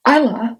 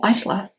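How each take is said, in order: First: "Isla" said EYE-la, with no S sound; silent S. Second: "Isla" said ICE-la, with the S sounded; pronounced S. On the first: Reader naming the heroine her own way, "Isla" as EYE-la, silent S. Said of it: "I would say Isla". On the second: Reader giving the alternative name, "Isla" as ICE-la, S pronounced. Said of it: "the audiobook narrator says Isla". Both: Shown as a demonstration.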